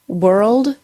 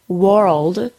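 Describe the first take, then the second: First: The W goes straight into an R sound. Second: The vowel is a full 'or' sound. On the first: The speaker calls it right. "go from the W sound immediately to the R sound" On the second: The speaker calls it wrong. "don't say world"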